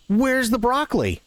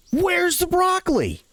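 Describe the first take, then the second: First: Lady customer asking. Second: Much higher, slow, indignant lady's shriek; angry demand. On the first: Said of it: "And she goes". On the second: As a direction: drag it out, furious and shrill. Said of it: "he gets this really angry tap". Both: Retold or imitated.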